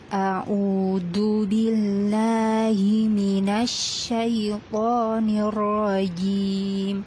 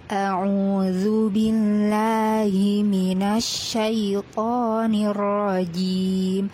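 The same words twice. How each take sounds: First: It starts with a plain catch and a d sound. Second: It starts with a throaty ain and a dh sound. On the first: The speaker calls it wrong. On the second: The speaker calls it right.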